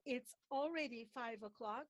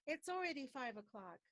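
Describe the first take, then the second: First: The words are pronounced separately. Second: The final consonants link into the following vowels. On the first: The speaker calls it wrong. "So don't say" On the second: The speaker calls it right.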